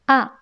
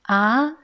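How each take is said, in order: First: The pitch falls sharply from high to low. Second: The pitch rises from mid to high. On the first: It expresses certainty. "A se prononce quatrième ton, c'est A" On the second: It expresses surprise at something unexpected. "il prononce le deuxième ton A"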